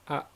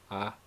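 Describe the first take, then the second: First: The vowel is high and ends in a catch. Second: The vowel is said on a mid tone. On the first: "a high tone with a glottal stop" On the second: "this is a mid-tone A"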